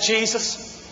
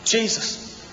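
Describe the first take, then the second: First: It is said quietly and doubtfully. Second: It is said quietly and doubtfully.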